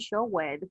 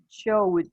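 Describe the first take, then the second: First: The ending is said as an extra syllable. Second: The ending joins the word as one syllable. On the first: The speaker calls it wrong. "we never say showed" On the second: The speaker calls it right. "We say showed"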